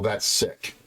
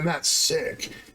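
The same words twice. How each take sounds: First: It is said in a plain, disapproving tone. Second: It is said in an excited, enthusiastic tone. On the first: Something is unhealthy. "it means it's unhealthy" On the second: Something is really good. "that means it's really good"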